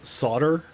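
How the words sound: It is said with an American pronunciation. "Those based in the U S A and Canada pronounce the word solder as solder"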